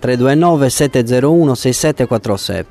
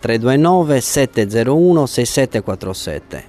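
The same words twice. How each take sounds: First: The number is said fast. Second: The number is said slowly.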